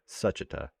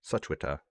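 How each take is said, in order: First: The W sound is left out of the name. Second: The W sound is pronounced in the name. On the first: The speaker calls it right. "let's remember the W is silent" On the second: The speaker calls it wrong. "I still said, still said the W"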